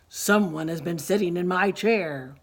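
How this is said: It is said in a loud, deep, booming voice. "roared Papa Bear in his great big voice"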